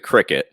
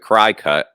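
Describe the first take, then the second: First: The first syllable does not sound like 'cry'. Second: The first syllable sounds like 'cry'. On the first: This is the proper way to say it. The speaker calls it right. "I think it's a Cricut is the way to pronounce it" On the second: This is how some other people say it. The speaker calls it wrong. "some people I've heard them say it's a cry cut"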